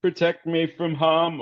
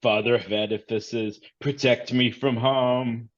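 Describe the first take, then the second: First: Repeated higher, a frightened plea; quick anxious repeat of the prayer, higher; reflexive prayer. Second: Muttered prayer. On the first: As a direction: blurt the prayer again, pitched up. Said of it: "almost kinda, like, reflexively". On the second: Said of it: "clutches her hard hat and says". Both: Acted.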